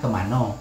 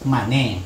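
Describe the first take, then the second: First: The word ends in an 'o' vowel after 'an'. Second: The word ends in an 'e' vowel after 'an'. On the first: This is how local speakers say it. "kalau orang sini bilang" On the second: This is how southern speakers say it. "kalau orang selatan itu bilang"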